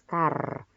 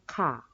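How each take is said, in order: First: The final r sound is clearly pronounced. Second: The final r sound is dropped. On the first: "itu jelas car" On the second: "kalau di British dia hanya bilang ka"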